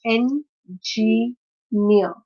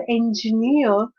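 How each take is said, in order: First: "N, G, near" as three separate parts; syllable by syllable. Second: Said in the usual way. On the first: Shown as a demonstration. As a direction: pause after "N" and "G", then "near". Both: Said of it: "stress is on the third syllable".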